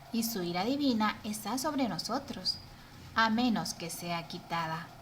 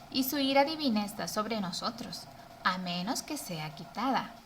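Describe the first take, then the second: Both takes have the same delivery.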